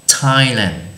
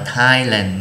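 First: The word begins with a plain t sound. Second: The word begins with a th sound. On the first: The speaker calls it right. "là chữ t" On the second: The speaker calls it wrong. "chứ chúng ta không đọc là Thailand nhé"

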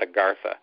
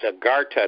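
First: It is said with a th sound. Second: It is said with a plain t sound. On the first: The speaker calls it wrong. "not Agartha" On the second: The speaker calls it right. "without the H, it's Agartha"

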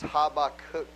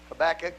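First: The name is said the Hebrew way. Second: The name is said the usual English way. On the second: "we pronounce it Habakkuk"

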